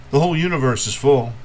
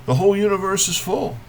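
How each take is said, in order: First: Said in the usual way. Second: High, quick refrain lifted out of the verse; brisk poetic refrain, pitched well up; raised refrain. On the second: Acted. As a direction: say the whole line up high without lingering. Refrain of poem, returning higher.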